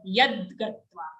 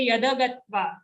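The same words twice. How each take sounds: First: Yad gatva with a bare d; half da. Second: Yada gatva with a full da; wrong yada. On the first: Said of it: "only a half the". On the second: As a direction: sound yada with a vowel. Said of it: "don't say yada gatva". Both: Shown as a demonstration.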